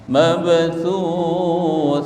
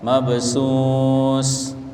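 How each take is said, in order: First: The last syllable uses a 'th' sound. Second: The last syllable uses an 's' sound. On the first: The speaker calls it right. "tapi thuth" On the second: The speaker calls it wrong. "jangan dibaca mabsus"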